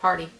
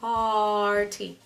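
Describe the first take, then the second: First: The first vowel is said short and plain. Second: The first vowel is stretched out long.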